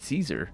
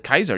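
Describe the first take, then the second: First: The name is said in an English-style way. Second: The name is said in a Latin-style way. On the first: "He pronounces it Caesar" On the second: "he would say Kaiser in his vain attempt at pronouncing it properly in Latin"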